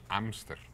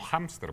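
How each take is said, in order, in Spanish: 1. La h inicial es muda; la palabra empieza por la vocal. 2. La h inicial se pronuncia con aire audible. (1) "no decimos hámster" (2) "conservan la, la pronunciación del H en español"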